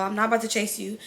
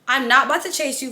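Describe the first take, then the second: First: Softer, lower muttered repeat; quieter repeat. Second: Said in the usual way. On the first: Real, not acted. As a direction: drop it down as an aside to yourself. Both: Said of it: "repeated to stress refusal".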